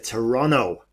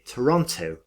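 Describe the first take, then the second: First: It is said the way Toronto locals say it. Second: It is said the way a British person says it.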